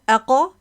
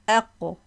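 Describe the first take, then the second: First: The final consonant is followed by a full vowel. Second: The final consonant is released with a light bounce. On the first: The speaker calls it wrong. "No aqa" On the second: The speaker calls it right. "we are saying this just bouncing"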